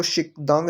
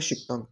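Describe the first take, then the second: First: शिकदांग with a voiced d, the wrong way; wrong reading. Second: शिकतांग with a clear t after शिक; correct reading. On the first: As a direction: read शिकदांग with d, not t. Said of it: "इसको शिकदांग नहीं पढ़ना". (गलत उच्चारण शिकदांग, द के साथ) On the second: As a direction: say शिकतांग, t not d. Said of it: "तो इसकी पढ़ेंगे शिकतांग". (सही उच्चारण शिकतांग, त के साथ) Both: Shown as a demonstration.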